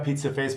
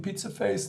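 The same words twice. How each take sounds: First: It is said in an indifferent, dismissive way. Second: It is said in an upset, emotional way.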